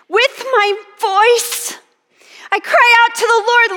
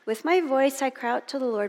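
First: It is cried out with passionate, pleading feeling. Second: It is read plainly, without feeling.

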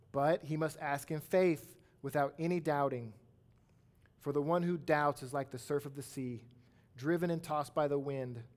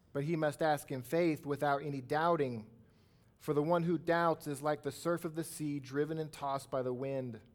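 The two takes are said the same way.

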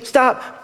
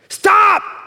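First: It is said gently and softly. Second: It is yelled loudly and forcefully.

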